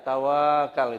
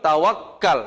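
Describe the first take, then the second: First: The word is said softly with a single k. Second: The word is said forcefully with a doubled k. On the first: Passively waiting for a miracle without effort. The speaker calls it wrong. "lembek bacanya" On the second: Trusting God after making real effort. The speaker calls it right. "keras dia"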